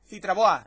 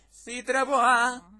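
First: Name said quickly and louder. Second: Slow, louder, stretched name; drawn-out name call. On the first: Shown as a demonstration. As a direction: rattle the name off in one go. (nombre dicho rápido) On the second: Acted. (nombre alargado, llamando) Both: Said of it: "lo dices así súper rápido".

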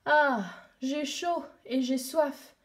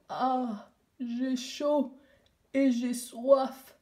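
First: Lent, las, assoiffé; plainte de chaleur. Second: Put-on a hoarse, slow echo of the girl; voix enrouée. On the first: Acted. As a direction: soupire ta soif, lentement. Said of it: "ai-je dit tout haut". (plainte lente et lasse) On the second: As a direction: rasp the words back slowly. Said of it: "une voix enrouée derrière moi". (voix rauque et lente qui répète)

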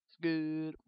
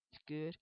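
First: Louder, put-on movie voice; a loud quote from Bruce Almighty; Bruce Almighty impression. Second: Said in the usual way. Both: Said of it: "rip-off of Bruce Almighty".

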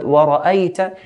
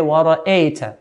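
First: وَرَأَيْتَ with an open a before the y, ra-ay-ta; clear fatha. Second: وَرَأَيْتَ with the a sliding to e, ra-ey-ta; blurred fatha, wrongly. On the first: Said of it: "pronouncing the letter with a clear fatha". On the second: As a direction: say وَرَأَيْتَ with an in-between e sound. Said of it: "it's very common to hear". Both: Shown as a demonstration.

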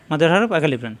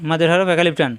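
The two takes are said the same way.

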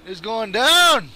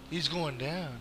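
First: Slow, building yell; drawn-out battle cry. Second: Soft, low threat; low vow. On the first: Gamer vowing to take down his target, drawn-out yell. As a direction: stretch the last word into a yell. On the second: Gamer vowing to take down his target, low vow. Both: Real, not acted.

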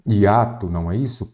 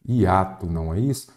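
Both takes have the same delivery.

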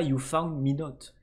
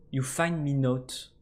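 First: Said in the usual way. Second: You find me note read slowly, word by word; reading out broken English. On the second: Shown as a demonstration. Gamer reads the badly written note aloud, slow and deliberate. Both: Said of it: "ils écrivent pas you found me note".

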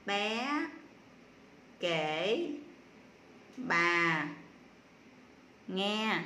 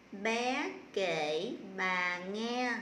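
First: Each word alone, with long pauses between; word-by-word reading. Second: Slow, drawn-out words as a reading demo; slow model reading. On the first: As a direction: read it one isolated word at a time. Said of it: "đánh vần và đọc lại". (đọc rời từng tiếng, ngắt lâu) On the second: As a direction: read the sentence very slowly for pupils. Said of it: "cô sẽ đọc cái câu này". (đọc mẫu cả câu thật chậm) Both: Shown as a demonstration.

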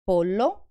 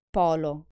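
First: Pollo with a long ll; chicken, doubled; double ll held. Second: Polo with a short l; quick l in polo; pole, single. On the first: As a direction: hold the ll in Pollo. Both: Shown as a demonstration. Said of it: "pay additional attention".

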